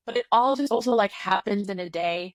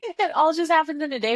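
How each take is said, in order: First: Said in the usual way. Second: "happens" lifted high and loud; stress on happens. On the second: Shown as a demonstration. Friend repeats her point, hitting "happens" harder. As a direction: repeat it with "happens" punched higher.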